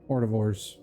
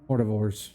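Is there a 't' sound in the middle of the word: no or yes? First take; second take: yes; yes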